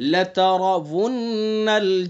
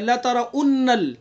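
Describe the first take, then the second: First: A clear w sound comes before 'unnal'. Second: A glottal stop comes before 'unnal'. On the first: The speaker calls it right. "आगे वाव को साफ पढ़ेंगे" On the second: The speaker calls it wrong. "वाव की जगह हमजा पढ़ देते हैं"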